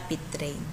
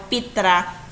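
First: Pitrain said pi-TREN, ending in a clear n; the word Pitrain with a final -ein sound; Pitrain pronunciation. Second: Pitra said PEE-tra, ending open on a with no n; the word Pitra, final syllable tra with no nasal; Pitra pronunciation. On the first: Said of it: "not Pitrain". (bigkas na Pitrain, may tunog na n sa dulo) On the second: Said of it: "ang sabi daw". (bigkas na Pitra, walang n sa dulo) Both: Shown as a demonstration.

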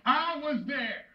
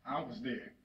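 First: Accusing. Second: Low, soft, weighted statement; subdued accusation. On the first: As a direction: hurl it at your son as a grieving father. Acted father confronting condemned son. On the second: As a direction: drop right down and let it sit. Same accusation, now subdued. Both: Acted.

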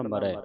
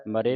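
First: ਮਰੈ with a wide open "eh" ending; ਮਰੈ, last vowel open. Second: ਮਰੇ with a closed "ay" ending; ਮਰੇ said as ma-ray; mistaken e ending. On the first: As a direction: end ਮਰੈ on a broad ai. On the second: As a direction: end ਮਰੇ on a narrow e. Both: Shown as a demonstration. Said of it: "ਮਰੇ ਨਹੀਂ ਪੜ੍ਹਨਾ".

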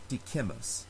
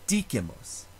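First: "dicemus" with CE stressed instead of DI; wrong stress on middle. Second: "Dicemus" with DI stressed, short unstressed middle; stress on first syllable. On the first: Teacher showing the stress to avoid, middle-syllable stress. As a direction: lean on the middle CE of "dicemus", softer. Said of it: "not dicemus". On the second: Teacher giving the correct Latin stress, first-syllable stress. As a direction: hit the DI of "Dicemus", let the rest drop. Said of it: "It has to go forward to the third to last syllable". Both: Shown as a demonstration.

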